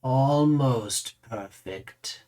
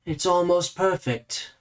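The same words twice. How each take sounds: First: Very slow, stretched-out ALMOST; lingering verdict. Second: Higher, slowed appraisal; appraising. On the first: Raises the mirror to repeat his verdict, drawn out and lingering. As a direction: stretch "Almost perfect" right out at your usual pitch. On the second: Mirror-gazer looks over a visitor's face, appraising, slow and higher. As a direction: size up a face with lingering, raised pitch. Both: Acted.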